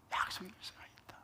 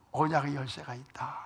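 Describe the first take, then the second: First: The line repeated as a whisper; whispered echo. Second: Said in the usual way. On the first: Retold or imitated. Pastor voicing a believer's inner self-talk, whispering. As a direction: breathe the repeat, barely voiced.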